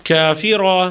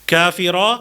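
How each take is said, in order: Both takes have the same delivery.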